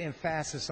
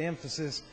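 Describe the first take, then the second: First: "emphasis" with the stress moved to the middle, em-FASS-is; wrong-syllable stress. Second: Said in the usual way. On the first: Shown as a demonstration. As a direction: lean playfully on the second syllable of "emphasis". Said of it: "put the emphasis on the wrong syllable".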